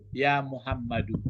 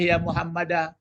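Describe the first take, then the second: First: The name ends with an 'u' vowel. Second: The name ends with an 'a' vowel. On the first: The speaker calls it right. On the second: The speaker calls it wrong.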